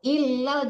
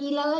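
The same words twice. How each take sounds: First: The lam sound is doubled and held. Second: The lam sound is single and short. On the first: The speaker calls it right. "tasdid lamnya bu" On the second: The speaker calls it wrong. "jangan ilal aja"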